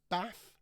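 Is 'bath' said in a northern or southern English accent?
northern. It is said in a northern English accent.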